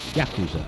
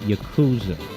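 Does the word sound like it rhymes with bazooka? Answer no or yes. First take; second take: no; yes. First: The word is said not rhyming with bazooka. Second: The word is said to rhyme with bazooka. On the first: The speaker calls it right. "but it's Yakuza" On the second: The speaker calls it wrong. "like bazooka"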